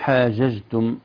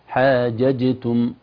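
First: The j sounds are soft, without a firm stop. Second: The j sounds are firm stops with a clear bounce. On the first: The speaker calls it wrong. "لو الجيم خرجت رخوة من غير صفتها اللي الشدة المحبوسة الصوت تصبح" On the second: The speaker calls it right. "لا بد من إخراج الجيم من مخرجها حتى تظهر قلقلة الجيم الثانية"

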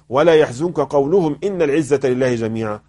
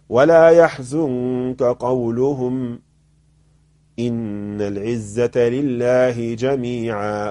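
First: The phrase runs on without any pause. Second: There is a pause after the second word. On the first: The final statement seems to be part of what they said. The speaker calls it wrong. "لو أنا وصلت وقلت" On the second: The final statement is not part of what they said. The speaker calls it right. "لاحظ"

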